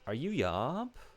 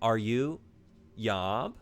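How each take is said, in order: First: It is said with no pause before Yob. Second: There is a pause before Yob.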